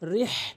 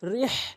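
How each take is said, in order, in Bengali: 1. 'h' গলার মাঝখান থেকে আসে। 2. 'h' গলার মাঝখান থেকে আসে।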